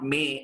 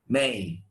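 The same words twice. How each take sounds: First: The vowel is one steady sound. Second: The vowel glides between two sounds. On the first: The speaker calls it wrong. "the next month is not May" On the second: The speaker calls it right. "it's May"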